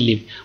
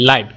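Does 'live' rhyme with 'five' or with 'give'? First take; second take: give; five. First: The vowel is short, as in 'give'. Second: The vowel is long, as in 'five'. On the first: To reside somewhere. "বসবাসের ক্ষেত্রে উচ্চারণটা ভিন্ন হয়ে যায়" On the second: Something is broadcast as it happens. "লাইভ মানে সরাসরি।"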